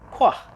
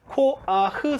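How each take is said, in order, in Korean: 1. 이 단어는 이음절로 발음돼요. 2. 이 단어는 삼음절로 발음돼요. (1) "원래는 이게 이름절로 발음하셔야 돼요" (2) "코아흐 삼음절이 아니라"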